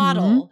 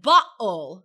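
First: The middle consonant sounds like a soft D. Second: The middle consonant is a glottal stop. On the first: "the T for an American becomes a D" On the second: "for some British accents, it becomes a glottal stop"

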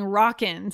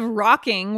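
First: The ending is pronounced with the g dropped. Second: The ending is pronounced with a full ng sound. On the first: "we're saying rockin'. ... We're dropping that G" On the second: "instead of rocking"

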